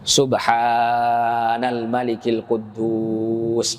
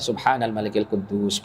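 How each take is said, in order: First: It is said slowly with drawn-out sounds. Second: It is said at a normal, plain pace.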